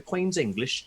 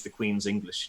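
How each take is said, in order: First: Exaggerated British accent; David Mitchell. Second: Said in the usual way. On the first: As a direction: put on a mock Queen's English British accent. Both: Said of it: "he doesn't quite talk like that".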